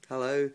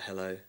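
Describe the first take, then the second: First: The greeting sounds eager rather than cool. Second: The greeting sounds cool and casual. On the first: "I probably answered it with a cooler voice than that" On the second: "I think I was like"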